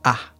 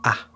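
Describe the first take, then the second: First: The word is a short, reduced 'ah' vowel. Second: The word is a short, reduced 'ah' vowel.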